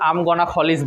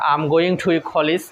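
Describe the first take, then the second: First: The words going to are reduced to one. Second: The words going to are said in full. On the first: "সেখানে আমি আম গনা college বলতে পারবো" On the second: "যেমন আমরা বলি না যে"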